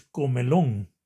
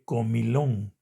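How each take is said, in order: First: "comelón" with E in the middle syllable; mistaken pronunciation. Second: "comilón" with I in the middle syllable; correct pronunciation. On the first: Teacher giving an example of a common error, "comelón" with E. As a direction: show the error "comelón", E instead of I. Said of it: "los errores de ponerle otra letra a la palabra". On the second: Teacher correcting the common error, "comilón" with I. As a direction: give the proper "comilón", I instead of E. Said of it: "en lugar de". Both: Shown as a demonstration.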